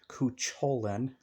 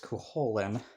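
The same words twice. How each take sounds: First: The C before the H is pronounced. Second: The C before the H is silent. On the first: The speaker calls it wrong. "People pronounce it like Cuchulainn. No" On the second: The speaker calls it right. "it's Cuchulainn. ... the C is silent next to the H"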